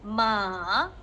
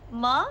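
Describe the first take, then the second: First: The pitch dips down and then rises. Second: The pitch rises steadily to the end. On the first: "gunakan kepala awak bentukkan huruf V" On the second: "dia macam, ha? Je, ha? Ma? Macam gitu"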